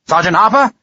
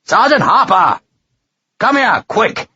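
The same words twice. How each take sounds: First: First call for Harper, raised and questioning. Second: Bellowing. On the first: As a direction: call the sergeant with a lifting end. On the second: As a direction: bellow the name into the night. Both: A narrator's reading. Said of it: "he bellowed hugely into the night".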